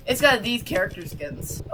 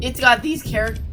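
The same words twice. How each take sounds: First: Said in the usual way. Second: Voice cracking. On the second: Real, not acted. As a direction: voice cracks mid-word. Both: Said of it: "sorry, my voice cracked".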